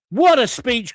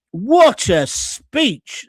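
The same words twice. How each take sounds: First: Said in the usual way. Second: Slow, stretched and louder, savouring each word; drawn-out exclamation. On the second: Acted. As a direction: linger on "What a speech" like a proud announcement. Reading a viewer's comment aloud.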